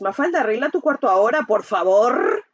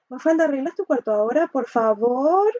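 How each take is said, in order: First: It is said in a harsh, aggressive tone. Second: It is said timidly, with some sarcasm. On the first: The request is an angry demand. "La agresiva es" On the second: The request is made fearfully, without real authority. "la pasiva es como, la, como con miedo, pero es como un poquito con, como con sátira al final"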